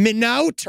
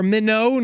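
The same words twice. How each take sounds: First: "Minot" said as "min-out"; uncertain pronunciation. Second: "Minot" said as "min-oh", silent t; second-guess pronunciation. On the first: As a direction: say "Minot" with an "out" ending. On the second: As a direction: say "Minot" ending in "oh". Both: Shown as a demonstration. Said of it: "saying it every way possible".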